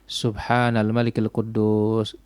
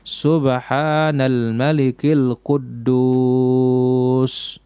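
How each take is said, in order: First: It is said quietly and briefly. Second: It is said loudly and drawn out. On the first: "kecil suaranya" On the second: "Yang ketiga dipanjangkan din dibesarkan"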